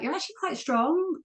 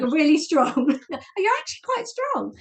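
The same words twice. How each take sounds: First: High, lilting praise that sounds condescending; unintentionally patronizing. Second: High-pitched, genuinely amazed compliment; excited, much higher retelling of praise; impressed coach. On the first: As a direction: mimic a coach's compliment so it comes out patronizing. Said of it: "didn't say it in a patronizing way". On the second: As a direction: imitate a coach discovering surprising strength, voice leaping up. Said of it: "she didn't say it in a patronizing way". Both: Retold or imitated.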